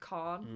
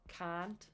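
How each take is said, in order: First: It is said with a British vowel. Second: It is said with an American vowel.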